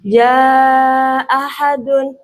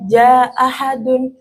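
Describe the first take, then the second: First: The vowel before the hamzah is held long. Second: The vowel before the hamzah is held short. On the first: "yang kedua pan panjang yang mat" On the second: "Yang pertama qashar"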